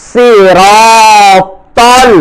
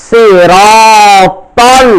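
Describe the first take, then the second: Both takes have the same delivery.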